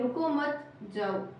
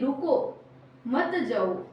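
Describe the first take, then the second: First: The pause comes after रुको मत. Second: The pause comes after रुको.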